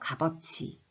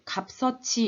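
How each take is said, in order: First: Only a b sound links to the next syllable. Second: Both final consonants link, giving a bs sound. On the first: The speaker calls it right. "먼저 비읍으로 바꿔준 다음에 연음" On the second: The speaker calls it wrong. "갑서치 이렇게 가는 게 아니라"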